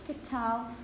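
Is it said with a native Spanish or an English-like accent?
English-like. It is said with an English-like, aspirated accent.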